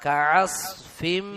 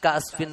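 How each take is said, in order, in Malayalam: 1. തൊണ്ടയുടെ ആഴത്തിൽ നിന്നുള്ള വ്യക്തമായ ഐൻ ശബ്ദം കേൾക്കുന്നു. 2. ഒരു സാധാരണ ഗ്ലോട്ടൽ സ്റ്റോപ്പ് തൊണ്ടയിലെ ശബ്ദത്തിന് പകരം വരുന്നു. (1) "കാഫ് കഴിഞ്ഞിട്ട് ഐനാണ്" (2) "അത് ഹംസയും കാസ്ഫിൻ കാസ്ഫിൻ ആവും"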